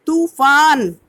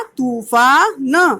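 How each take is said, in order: First: Said in the usual way. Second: Slow, stretched तूफान with a long ऊ; teacher slowly sounding out तूफान; drawn-out reading. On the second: Shown as a demonstration. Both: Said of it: "उसे थोड़ा खींच कर पढ़ा जाता है".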